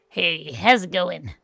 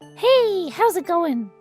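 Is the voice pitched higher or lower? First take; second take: lower; higher. First: It is said in a lower, less nasal voice. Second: It is said in a high, nasal voice.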